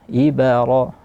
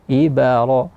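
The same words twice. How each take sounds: Both takes have the same delivery.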